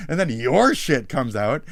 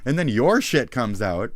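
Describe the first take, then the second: No difference in how they are said.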